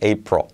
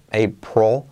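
First: No vowel is heard before the final L. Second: A clear O vowel precedes the final L. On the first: The speaker calls it right. "es como si no hubiera vocal" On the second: The speaker calls it wrong. "no suena tampoco una O"

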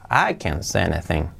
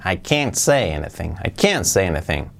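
First: The word can is weak and unstressed. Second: The word can't carries strong stress. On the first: The speaker is able to say something. "Si fuera afirmativa, yo puedo decir algo, sería" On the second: The speaker is unable to say anything. "Si es negativa, fijaos que ponemos la fuerza en el can't"

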